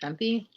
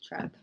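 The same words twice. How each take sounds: First: Quiet test of Trempy, ending in ee; Trempy with final ee. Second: Quiet test of Tremp, ending on p; Tremp as one syllable. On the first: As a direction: softly try out TREMPY in two syllables. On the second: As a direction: softly try out TREMP without an ee. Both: Shown as a demonstration. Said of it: "how to say her last name".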